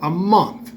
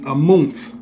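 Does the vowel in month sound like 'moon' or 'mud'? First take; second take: mud; moon. First: The vowel is the usual short 'uh' sound. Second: The vowel is a long 'oo' like moon. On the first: "what we call a month" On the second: "the actual pronounce would be a month. M O O N T H"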